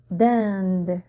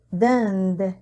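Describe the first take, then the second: No difference in how they are said.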